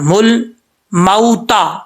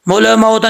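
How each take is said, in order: First: The L sound is held steady without any bounce. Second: The L sound is released with a bouncing echo. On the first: The speaker calls it right. "लाम के ऊपर आवाज़ जब जाए तो जम जाए" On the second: The speaker calls it wrong. "इसमें कलकला नहीं करना, मुल मऊता नहीं पढ़ना"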